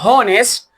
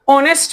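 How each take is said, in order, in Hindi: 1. यह शब्द एक सुनाई देने वाली 'h' ध्वनि से शुरू होता है। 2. यह शब्द स्वर से शुरू होता है, 'h' ध्वनि नहीं है। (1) "this is not हॉनेस्ट" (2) "ऑनेस्ट एच silent होता है"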